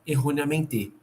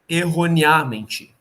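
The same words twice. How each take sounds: First: The stress is on the last syllable. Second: The stress is on the third-to-last syllable. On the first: "E se ela fosse oxítona" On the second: "Se ela fosse pela proparoxítona"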